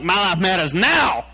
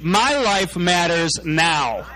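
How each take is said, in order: First: It is said with a sassy attitude. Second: It is said plainly, without attitude.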